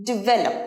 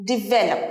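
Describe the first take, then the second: No difference in how they are said.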